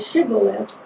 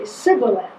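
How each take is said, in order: First: The word begins with an 'sh' sound. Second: The word begins with an 's' sound. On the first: The speaker belongs to the first group. The speaker calls it right. "the first group could say Shibboleth" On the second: The speaker belongs to the other group. The speaker calls it wrong. "the other group could only say Sibboleth"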